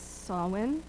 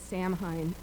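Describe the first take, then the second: First: The word is said with its Gaelic pronunciation. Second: The word is said as English spelling suggests. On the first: This is how Gaelic speakers say it. The speaker calls it right. "The Gaelic pronunciation is Samhain" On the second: This is the tempting everyday reading. The speaker calls it wrong. "we are all tempted to say Samhain"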